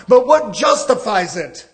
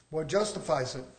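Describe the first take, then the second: First: Said in the usual way. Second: Much lower and softer, drawn inward; quiet echo. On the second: Acted. Preacher echoing his own question to the church, low and hushed. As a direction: repeat it to yourself, dropping way down.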